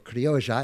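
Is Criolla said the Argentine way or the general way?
Argentine. It is said the Argentine way.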